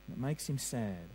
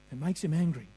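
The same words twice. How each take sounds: First: Much lower and softer, grieving; sad and hushed. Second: Said in the usual way. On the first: Shown as a demonstration. Preacher to congregation on God's grief, hushed and sad. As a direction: let the word sad sink low and quiet. Contrasting God's anger and sadness.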